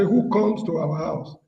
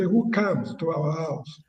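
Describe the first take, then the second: First: "comes" with a rounded "o", like "koms"; slow demo, "comes" said as "koms"; Nigerian pronunciation. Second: "comes" with an open "a", like "kahms"; slow demo, "comes" said as "cams"; Ghanaian pronunciation. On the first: Panelist contrasting his own country's speech with Ghana's, Nigerian pronunciation. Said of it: "in Nigeria, we say". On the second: Panelist contrasting Ghana's speech with Nigeria's, Ghanaian pronunciation. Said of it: "In Ghana". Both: Shown as a demonstration.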